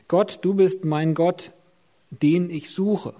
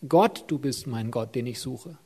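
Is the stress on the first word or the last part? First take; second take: last part; first word. First: The stress is on the last part. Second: The stress is on the first word.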